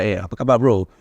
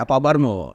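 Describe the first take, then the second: First: Casual Malaysian Malay greeting; Malaysian Malay accent. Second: Casual Brunei Malay greeting; Brunei Malay accent. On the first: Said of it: "I can speak Malaysia". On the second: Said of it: "But I can say". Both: Shown as a demonstration.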